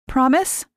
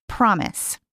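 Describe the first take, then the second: First: High rising hopeful "Promise?"; hopeful question. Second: "Promise." settled and falling; firm reply. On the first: Mary asking Lise to promise, hopeful rise. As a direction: ask for "Promise?" with a lifted, pleading rise. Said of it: "Mary says". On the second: Lise reassuring Mary, steady promise. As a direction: answer "Promise." calmly with a falling close. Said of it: "Promise." answer". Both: A narrator's reading.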